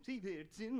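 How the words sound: The name is said with a Norwegian accent. This is how it is said in the original country. "It's like an accent, like the way they accentuate those certain parts of it"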